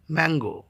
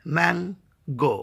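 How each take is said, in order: First: Said in the usual way. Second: "ম্যাঙ্গো" slowly split as ম্যান, গো; two separate beats in "ম্যাঙ্গো", pause between; syllable by syllable. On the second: Shown as a demonstration. Teacher showing a disyllable, saying "ম্যাঙ্গো" in two slow parts. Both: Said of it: "দুইবারে উচ্চারণ করতে হয়".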